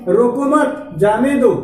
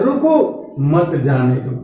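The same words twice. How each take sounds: First: रोको मत in one go, then falling जाने दो; "रोको मत" grouped, जाने दो separate; pause after मत. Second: रुको on its own, मत joined to जाने दो; pause after रुको. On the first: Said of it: "यहाँ पे कामा लगा". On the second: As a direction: stop after रुको and drop pitch on मत जाने दो. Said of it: "एक शब्द के बाद कामा लगा". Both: Shown as a demonstration.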